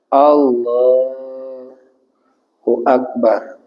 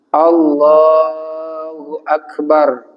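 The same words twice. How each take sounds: First: It is said with a break between the words. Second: It is said in one breath without a break.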